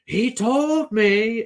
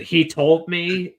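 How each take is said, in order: First: High, long drawn-out mock scream; imitated crazed yell. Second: Louder, higher, drawn-out imitated yell; a first, lighter go at her yell. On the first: Showing co-hosts how she yells, insane, imitated yelling. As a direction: stretch it out high, as if unhinged. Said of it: "yelling on top of something". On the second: Trying to recall how she yells in the fight, imitated yell. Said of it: "The way she yells".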